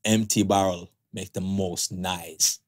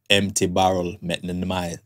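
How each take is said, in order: First: Put-on slow, careful Jamaican accent; second try at the Jamaican proverb. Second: Put-on Jamaican accent. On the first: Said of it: "Take two". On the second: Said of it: "I'm gonna say it in my Jamaican voice".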